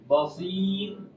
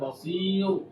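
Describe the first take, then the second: First: The final r sound is light and thin. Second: The final r sound is heavy and thick. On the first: The speaker calls it right. "ro-nya nanti akan dibaca tipis" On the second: The speaker calls it wrong.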